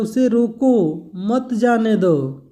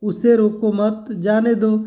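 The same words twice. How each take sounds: First: Slow "उसे रोको", break, then "मत जाने दो"; break after रोको. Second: "उसे रोको मत" as one group, then "जाने दो"; break after मत. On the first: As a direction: stretch "रोको" and attach "मत" to "जाने दो". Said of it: "और तीसरे वाक्य में दे रहा है". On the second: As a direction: keep "रोको मत" tight, comma before "जाने दो". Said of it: "दूसरा वाले वाक्य में दिया है". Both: Shown as a demonstration.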